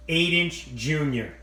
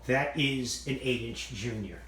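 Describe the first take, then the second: First: "Eight inch junior" said slowly and louder, every word leaned on; emphatic slow repeat. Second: Said in the usual way. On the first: Shown as a demonstration. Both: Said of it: "That's right".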